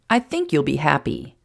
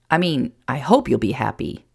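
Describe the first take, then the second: First: "think" lifted above the rest, then falling; stress on think. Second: "hope" lifted as the corrected word, then falling; stress on hope. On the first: Jason about to share news, stress on "think". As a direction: lean on "think", tentatively. First take, then corrected. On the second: Jason correcting himself before his news, stress on "hope". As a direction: correct yourself by leaning on "hope". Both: Acted.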